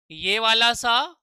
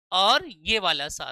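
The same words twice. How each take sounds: First: सा held long and slow with a rising end; demo second sa. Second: सा slow and falling, a bit lower; demo third sa. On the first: Teacher shows pupils the second सा, slow and rising. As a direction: drawl सा slowly, voice rising. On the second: Teacher shows pupils the third सा, slow and falling. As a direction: let सा sink slowly at the end. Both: Shown as a demonstration. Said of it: "तीन तरीके के सा मैंने बताए थे".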